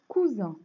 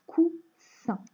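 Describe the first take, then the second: First: "Cousin" said out firmly with a voiced Z, cou-zin; Z sound in Cousin. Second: "coussin" split in two, cou-ssin, with a voiceless hiss; S sound in coussin. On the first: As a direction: buzz the middle consonant of "Cousin". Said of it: "donc je chante le Z". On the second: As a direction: break "coussin" before a clear hissed S. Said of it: "pouvoir chanter le son S". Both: Shown as a demonstration.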